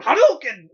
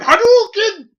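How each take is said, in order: First: Yelled fighting game move; Hadouken shout. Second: Big anime battle yell; Hadouken shout. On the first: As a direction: belt out the special move. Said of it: "It looks like him just going". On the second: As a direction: shout it like a fighting game move. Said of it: "I'm sitting there going". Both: Retold or imitated.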